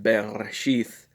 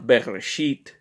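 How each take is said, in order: First: The word ends with a soft 'th' sound. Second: The word ends with a hard 't' sound. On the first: The speaker calls it right. "it is pronounced Bereshith" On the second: The speaker calls it wrong. "not Bereshit"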